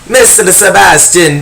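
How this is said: It is said in a vampire-like female voice. "What about like a vampire-like voice?"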